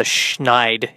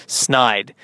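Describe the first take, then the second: First: "Schneid" with sh before the N; "Schneid" with a hushed sh opening; SH mispronunciation. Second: "Snide" with a plain S before the N; "Snide" with no sh sound; S-N pronunciation. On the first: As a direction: say "Schneid" starting shn. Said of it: "it's not the Schneid". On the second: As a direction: say "Snide" starting sn, not shn. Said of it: "it's Snide". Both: Shown as a demonstration.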